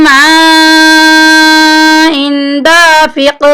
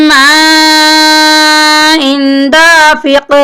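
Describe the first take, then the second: No difference in how they are said.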